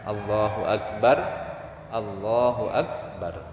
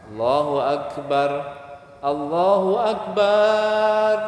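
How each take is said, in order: First: The vowel after b in Akbar is short. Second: The vowel after b in Akbar is long. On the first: It means the greatest. The speaker calls it right. "Yang paling bagus dibaca sukun" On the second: It means menstruation instead. The speaker calls it wrong. "memanjangkan ba pada kata akbar"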